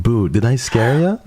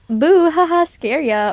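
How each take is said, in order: First: Cutesy spooky catchphrase, raised pitch; sing-song boo to startle chat; startling boo. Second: Playful spooky catchphrase, raised pitch; a cutesy boo to startle chat; startling boo. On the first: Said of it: "I think I know what you're talking about". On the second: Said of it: "it was so cringe". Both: Retold or imitated.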